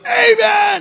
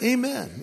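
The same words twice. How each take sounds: First: It is shouted very loudly. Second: It is said calmly and quietly.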